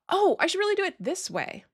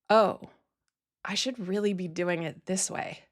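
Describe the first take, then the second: First: It sounds light, casual and passing. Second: It sounds heavy, pressured and self-critical. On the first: It is just a passing realization. "It could be a passing thought" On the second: Doing it another way would be inferior. "one version of that comes with pressure, self-criticism, and judgment"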